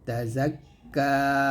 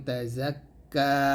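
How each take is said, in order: Both takes have the same delivery.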